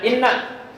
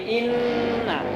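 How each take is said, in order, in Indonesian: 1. Bunyi sengau dipotong pendek. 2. Bunyi sengau ditahan panjang. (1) "Tidak ibu bacanya" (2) "pakai pan panjang"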